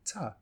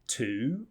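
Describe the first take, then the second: First: The vowel is reduced to a weak sound. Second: The vowel is full and clearly pronounced. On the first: "reduce them" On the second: "say them clearly"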